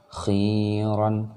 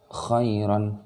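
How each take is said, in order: First: "khiran" with the i held long; long vowel. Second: "khairan" with a brief khai glide; short diphthong. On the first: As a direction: stretch "khi" out steadily before "ran". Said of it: "oh ini panjang". ("khiran" dengan khi dipanjangkan) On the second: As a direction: chant "khairan" without lengthening "khai". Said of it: "oh ini tidak panjang". ("khairan" tidak dibaca panjang) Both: Shown as a demonstration.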